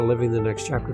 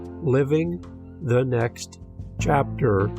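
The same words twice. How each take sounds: First: The phrase is said quickly. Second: The phrase is said slowly.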